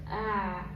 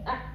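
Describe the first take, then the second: First: The throat sound is moderately tight, in between. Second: The throat sound is pressed and very tense. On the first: The speaker calls it right. "Tapi tengah-tengah. Tawassut" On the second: The speaker calls it wrong. "Tapi jangan terlalu kencang"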